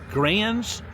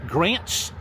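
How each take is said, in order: Both takes have the same delivery.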